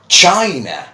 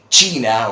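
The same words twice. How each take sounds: First: It is pronounced in an English way. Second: It is pronounced in a Spanish-like way. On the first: The speaker calls it right. "but this is China" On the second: The speaker calls it wrong. "many people do say China, or obviously trying to... imitate the Spanish pronunciation"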